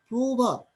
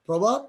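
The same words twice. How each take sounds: First: প্রভাত said "প্রোভাত", first vowel rounded; প্রভাত pronounced with o; initial অ as ও. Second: Said in the usual way. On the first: Shown as a demonstration. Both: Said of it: "প্রভাত কি হয়ে গেছে".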